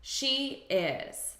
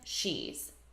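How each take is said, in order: First: It is said as two separate full words. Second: It is said as one contracted word. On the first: "Do you know what this contraction is?" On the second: "as a contraction"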